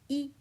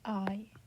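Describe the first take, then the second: First: The vowel is a bright steady 'ee'. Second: The vowel glides like English 'eye'. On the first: The speaker calls it right. "It is a bright E sound like in tree" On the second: The speaker calls it wrong. "No, it doesn't sound like that"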